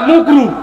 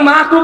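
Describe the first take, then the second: First: The first vowel is a rounded u sound. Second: The first vowel is an open a sound. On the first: The word is blurred to avoid saying it plainly. The speaker calls it wrong. "মাকরুটাকে ঠিকভাবে বলবে না" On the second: The word is said clearly and properly. The speaker calls it right. "মানে মাকরু বলবে না"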